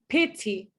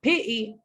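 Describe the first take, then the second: First: The t is a clear, crisp t sound. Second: The t is replaced by a glottal stop. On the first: "It's not pity, bottle. That's U K English" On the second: "It's not pity, bottle. That's Cockney English"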